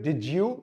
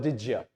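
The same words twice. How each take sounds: First: Said in the usual way. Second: Did ya with you cut short to ya. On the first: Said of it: "तो आप fully भी pronounce कर सकते हैं". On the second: Shown as a demonstration. Teacher showing the short form of did you as did ya. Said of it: "and it becomes ya".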